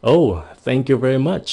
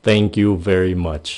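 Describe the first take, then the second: First: Surprised thank you very much. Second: Said in the usual way. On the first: Shown as a demonstration. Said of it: "to lớn hơn nữa". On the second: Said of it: "Thank you very much là cảm ơn rất nhiều".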